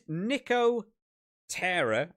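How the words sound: It is said as two separate words.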